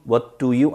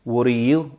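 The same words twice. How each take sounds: First: "what do you" with a clear t and d; full careful pronunciation. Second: "What do you" run together as "wuh-ri-you"; reduced linked pronunciation. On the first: Teacher showing what not to say, careful "what do you". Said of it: "아니고요". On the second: Teacher showing the natural form, reduced "What do you". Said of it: "what do you 아니고요". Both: Shown as a demonstration.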